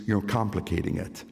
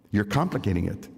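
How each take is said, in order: Both takes have the same delivery.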